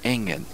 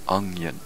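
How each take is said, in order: First: It is said in a broad Scottish accent. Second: It is said in a standard English accent.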